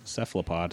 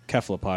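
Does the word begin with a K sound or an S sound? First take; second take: S sound; K sound. First: The word begins with a soft S sound. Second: The word begins with a hard K sound. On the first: This is how most people say it nowadays. "everybody says cephalopod" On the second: This follows the original Greek pronunciation. "it's always a hard C. ... So technically, cephalopod is correct"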